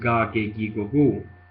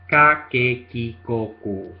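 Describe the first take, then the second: First: Each syllable starts with a voiced g sound. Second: Each syllable starts with an unvoiced, unaspirated k. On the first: The speaker calls it wrong. "it's not ga ge gi go gu" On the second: The speaker calls it right. "It's like a soft K between a G and a K. So it's not aspirated at all"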